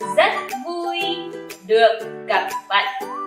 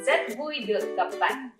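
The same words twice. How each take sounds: First: The phrase is spoken slowly. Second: The phrase is spoken at normal speed.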